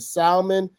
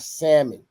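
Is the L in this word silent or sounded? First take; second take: sounded; silent. First: The L sound is clearly pronounced. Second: The L sound is left silent. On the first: The speaker calls it right. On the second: The speaker calls it wrong.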